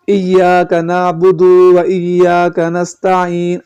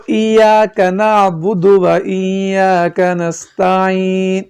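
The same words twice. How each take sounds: First: نعبد و with the دال stretched into a long و; slow drawn-out wrong recitation of ایاک نعبد و; wrong elongated reading. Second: نعبد said short with no stretched وا; slow careful ایاک نعبد و with a short final پیش; correct recitation. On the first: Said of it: "حالانکہ یہ سراسر غلط ہے". (نعبد و کو کھینچ کر غلط پڑھنا) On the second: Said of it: "یہ اس طرح ادا ہوگا". (صحیح ادائیگی، نعبد کو لمبا کیے بغیر) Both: Shown as a demonstration.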